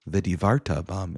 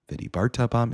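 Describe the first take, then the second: First: The middle consonant is a soft v sound. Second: The middle consonant is a hard b sound. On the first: The speaker calls it wrong. "is incorrect" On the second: The speaker calls it right. "is correct"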